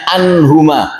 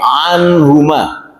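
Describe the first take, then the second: First: The word begins with a plain glottal stop. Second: The word begins with a throaty ain sound. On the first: The speaker calls it wrong. "jangan anhuma" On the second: The speaker calls it right. "tapi anhuma"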